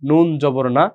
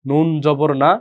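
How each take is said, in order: No difference in how they are said.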